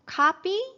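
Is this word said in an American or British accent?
American. The first vowel is an open unrounded ah.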